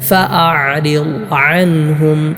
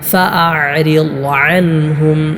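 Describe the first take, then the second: The two takes are said the same way.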